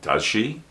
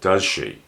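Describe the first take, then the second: First: The pitch rises at the end. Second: The pitch falls at the end. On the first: The speaker is not sure of the answer. "The voice goes up" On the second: The speaker thinks they know the answer. "The voice goes down"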